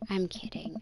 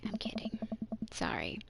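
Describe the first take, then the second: First: Said in the usual way. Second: Hushed apologetic whisper. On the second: Acted. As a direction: whisper it so only she hears.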